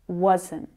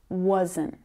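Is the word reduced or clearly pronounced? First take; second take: clear; clear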